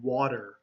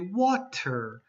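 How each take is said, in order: First: The middle consonant sounds like a D. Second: It is said slowly with a clear T sound. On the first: "most people use a D sound" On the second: "if you're saying it very slowly, you'll say water"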